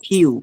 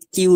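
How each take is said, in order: First: "কিউ" starting kh, as in English K; breathy khyoo for "কিউ"; correct aspirated Q. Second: "কিউ" with a plain k; no breath after k in "কিউ"; unaspirated opening on "কিউ"; mistaken Q. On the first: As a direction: puff of air on "কিউ". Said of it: "খেই ... same একইভাবে". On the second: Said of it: "কিউ না পড়ে". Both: Shown as a demonstration.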